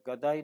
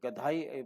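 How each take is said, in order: First: The middle consonant is a plain d sound. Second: The middle consonant is a breathy dh sound. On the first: This is the worn-down everyday form. The speaker calls it wrong. "गदाई नहीं" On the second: This is the original form from the word for donkey. The speaker calls it right. "गधे से गदाई बनाया है"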